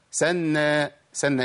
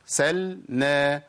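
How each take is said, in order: First: "سلنا" as "sanna"; "سلنا" with nun in place of lam; merged lam. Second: "سلنا" slowly as "sal-na"; slow chant, lam distinct in "سلنا"; clear lam. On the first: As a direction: drop the l of "سلنا" into a double n. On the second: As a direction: split "سلنا" after a full l. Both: Shown as a demonstration. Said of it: "ما تنفعش خالص".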